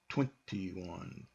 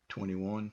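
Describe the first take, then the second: First: The T after the N is clearly pronounced. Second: The T after the N is dropped, like penny. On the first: Americans hardly ever say it this way. "You won't hardly ever hear an American go" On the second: This is the easier way Americans say it. "because it's easier to say"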